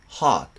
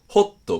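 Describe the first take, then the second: First: It is said with an American long open vowel. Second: It is said with Japanese katakana sounds. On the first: "全部同じ音で" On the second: "カタカナ式の発音だと"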